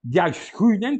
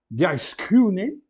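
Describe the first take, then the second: First: "Diaskunen" run together as one word, DIAS-ku-nen; read as one word. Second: "diaskunen" stretched slowly as di-as-KU-nen; slow Greek reading. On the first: Teacher shows students to read it all together, fluent. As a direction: say "Diaskunen" in one smooth breath. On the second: Teacher spells out a Greek word for students, slow. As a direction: draw "diaskunen" out slowly and loudly. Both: Shown as a demonstration. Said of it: "tem que ler tudo junto".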